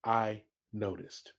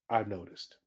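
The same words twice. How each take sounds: First: "I noticed" said slower, low and deliberate; slow emphasis. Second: "I've noticed" said low and deliberate; slow emphasis. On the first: Manager repeating the phrase, slow and low. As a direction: stretch out "I noticed". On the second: Manager opening a talk, low and deliberate. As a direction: lean on "I've noticed" gently. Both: Shown as a demonstration. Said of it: "Let me say it again".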